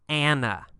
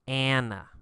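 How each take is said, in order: No difference in how they are said.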